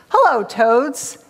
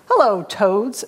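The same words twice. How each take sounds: First: Slow, lightly voiced snake; hissing snake. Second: Lightly voiced snapping turtle; a mild snap of a storybook greeting. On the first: Hungry snake greets two toads, slow mild hiss. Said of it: "hissed the snake". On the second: Hungry turtle greets two toads, a touch snappish. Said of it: "snapped the snapper". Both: A narrator's reading.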